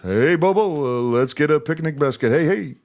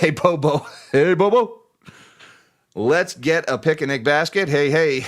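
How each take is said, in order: First: It is said in a Yogi Bear voice. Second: It is said in his normal voice.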